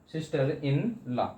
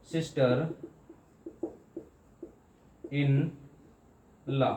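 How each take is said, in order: First: "sister इन लॉ" as one phrase, slight breaks only; joined up. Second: "sister इन लॉ" with long pauses between all three words; broken into parts. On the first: Teacher putting the parts back together for students, evenly. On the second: Teacher showing students another many-part word, piece by piece. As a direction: separate sister ... इन ... लॉ, each standing alone. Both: Shown as a demonstration. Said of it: "कई बार में पढ़ सकें".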